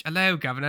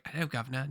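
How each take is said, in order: First: A fresh, still overdone Cockney hello; British accent. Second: Put-on quiet, overdone British accent try; a hammed-up Cockney hello. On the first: Pretend. Auditioning kid retries the British accent, still overdone. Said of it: "No, that's too much again". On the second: Auditioning kid trying a British accent, overdone. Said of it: "No, that's too much".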